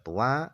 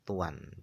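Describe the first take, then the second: First: First vowel u, no final n sound. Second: First vowel u, with a final n sound. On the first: "ada yang membaca tua"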